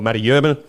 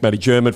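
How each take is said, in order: First: The surname begins with a Y sound. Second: The surname begins with a J sound. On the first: The speaker calls it right. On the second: The speaker calls it wrong.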